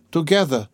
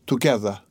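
First: Together said higher, as if lost in thought; a higher second together; dazed repeat. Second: Said in the usual way. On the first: A narrator's reading. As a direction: echo the word unconsciously, lifted. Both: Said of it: "she repeated, as it were unconsciously".

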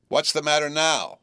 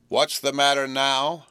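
First: Sister snapping a sharp question; sharp demand. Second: Slower, sharper repeat of the question; more sharply. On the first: Sister demands an answer at the tea table, sharp. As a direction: bark it at the boy. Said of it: "said she, smartly". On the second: Sister repeats her question to Joe, sharper and slower. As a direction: lean on each word, losing patience. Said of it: "more sharply than before". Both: A narrator's reading.

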